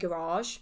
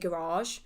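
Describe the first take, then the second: First: The word is given its posh pronunciation. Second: The word is given its posh pronunciation.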